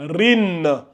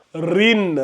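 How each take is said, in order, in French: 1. La syllabe se termine par un son n. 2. La syllabe se termine par un son n.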